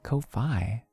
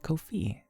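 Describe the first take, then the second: First: The last syllable rhymes with 'eye'. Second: The last syllable rhymes with 'see'. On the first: The speaker calls it wrong. "Why would I say it like Ko-fi?" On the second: The speaker calls it right. "It's Kofi"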